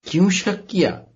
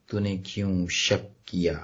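First: Higher, pressing repeat of the question; emphatic questioning. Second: Low, slow, solemn question; grave questioning. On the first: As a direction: lift کیوں شک high, then fall on کیا. وہی سوال زور سے دہراتا ہے. (زور دے کر اونچی آواز میں سوال) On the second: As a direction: ask it gravely, drawn out and low. یسوع کا سوال سناتا ہے. (سنجیدہ، دھیما سوال) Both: Retold or imitated.

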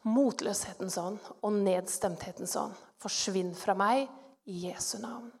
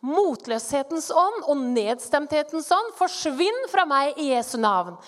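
First: Low, soft command so as not to wake a sleeper; hushed, near-whisper. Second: Firm, forceful command to a spirit; commanding rebuke. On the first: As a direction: say it under your breath, cautiously. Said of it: "Så sier jeg litt sånn hviskende, for ikke å vekke han". (lavt og forsiktig, nesten hviskende) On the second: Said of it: "Så sier jeg litt sånn hviskende". (myndig, kraftfull befaling) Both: Retold or imitated.

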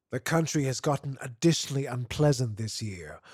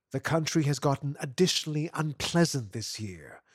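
No difference in how they are said.

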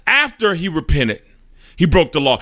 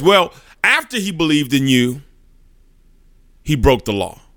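First: Higher, pushing the accusation hard; furious. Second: Irritated. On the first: Satan slamming the desk before the judge, furious. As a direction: slam it down like a fist on the desk. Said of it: "in furious". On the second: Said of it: "he's getting kinda irritated". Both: Acted.

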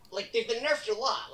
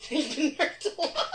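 First: Said in the usual way. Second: Higher, louder, laughing through it. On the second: Real, not acted. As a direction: laugh as you repeat it. Repeats line laughing.

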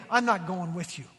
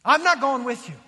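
First: Said in the usual way. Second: Louder, emphatic refusal; firm, raised-voice refusal; ticked off God. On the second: Retold or imitated. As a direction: put your foot down, imitating an angry God. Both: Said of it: "a very ticked off God".

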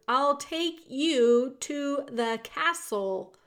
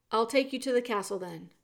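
First: Slow, loud, raised pitch; shouted. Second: Said in the usual way. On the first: A narrator's reading. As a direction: shout each word apart to be understood. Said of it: "shouted the soldier".

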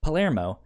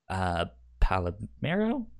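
First: "Palermo" said pa-LER-mo, three syllables, settled and falling; confident correction, "Palermo" with stress on the middle syllable; corrected name. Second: Says "Palomero" with an extra "o" in the middle, pa-lo-ME-ro, unsure; wrong try at the name, "Palomero" said pa-lo-ME-ro; unsure mispronunciation. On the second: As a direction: fumble the name as "Palomero" with a questioning lift. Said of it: "How do you fucking say his name?". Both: Real, not acted.

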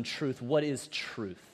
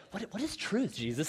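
First: Slow, low, dismissive question; mocking. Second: Sincere curiosity. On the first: Pilate brushing off Jesus without wanting an answer, mocking. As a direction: scoff at the very idea, softer and slower. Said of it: "He says it in this mocking tone". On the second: Acted. Imagined Pilate coming to Jesus for answers, sincerely curious. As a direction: ask as if truly wanting to learn. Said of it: "this question is not asked with sincerity".

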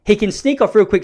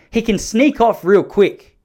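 First: Said in the usual way. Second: Drawn out slowly, each word leaned on; slow, deliberate warning; slow emphasis. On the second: Shown as a demonstration. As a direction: stretch it out to warn the listener.

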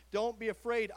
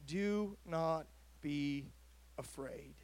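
First: Said in the usual way. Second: Slow, fading into a whisper on afraid; hushed angel words. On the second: A narrator's reading. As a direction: let the last word drop to a breath. Angel's words softly voiced.

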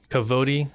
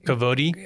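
First: "Kavodi" said settled, with the stress on -vo-; confident Hebrew word. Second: "kavodi?" said with a rising, unsure tune; questioning Hebrew word. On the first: Host repeating the Hebrew word back, now settled. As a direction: say "Kavodi" firmly, as learned. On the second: Host checking the Hebrew word, unsure rising repeat. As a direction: try out "kavodi" as a tentative question. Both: Shown as a demonstration. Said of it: "So we said it again".

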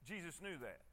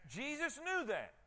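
First: Softer and lower repeat; much softer, lower. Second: Said in the usual way. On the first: Shown as a demonstration. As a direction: drop the voice on the repeat.

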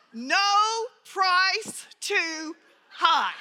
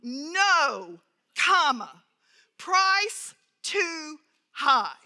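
First: "No price too high." run together as one slow phrase with no break after "No"; "No price too high" said with the stress on "No" and no comma pause. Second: Terse telegram reply with a clear pause at the comma. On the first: Shown as a demonstration. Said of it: "he left the comma out". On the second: Acted. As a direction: read it out short and stiff, with the pause after No. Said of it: "this very terse response".

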